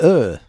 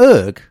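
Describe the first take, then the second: First: It ends in a vowel with no g sound. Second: It ends with an audible g sound. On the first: The speaker calls it right. "Silent G and H. It's like Ur" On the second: The speaker calls it wrong. "No, not Urg"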